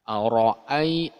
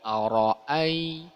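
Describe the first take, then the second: First: The first vowel is said with rounded lips. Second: The same.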